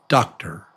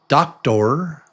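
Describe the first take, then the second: First: The second vowel is reduced to a quick schwa. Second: The second vowel is pronounced fully. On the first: The speaker calls it right. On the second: The speaker calls it wrong.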